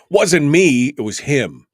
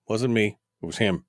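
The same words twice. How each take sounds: First: Mock defence, loud. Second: Said in the usual way. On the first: Shown as a demonstration. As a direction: deny it loudly as a joke. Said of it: "repeated louder". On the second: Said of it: "repeated as a bit".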